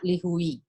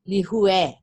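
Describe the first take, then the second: First: The word ends in an 'ee' vowel sound. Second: The word ends in an 'ay' vowel sound. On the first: The speaker calls it wrong. "not lihui" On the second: The speaker calls it right. "the correct pronunciation of it is actually lihue"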